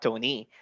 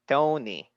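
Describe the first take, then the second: First: The pitch rises on the name. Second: The pitch falls on the name. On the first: The speaker calls it wrong. "not Tony" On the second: The speaker calls it right. "going down"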